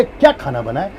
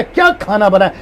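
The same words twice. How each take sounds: First: Low, soft asking with a rise; honest curious question about dinner; genuine question. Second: A mild scolding demo; mock scolding about the food. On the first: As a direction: ask it like you really want to know. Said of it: "इसको कहते हैं पूछा". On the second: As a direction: scold as if the meal is late. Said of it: "इसको कहते हैं डांटना". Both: Shown as a demonstration.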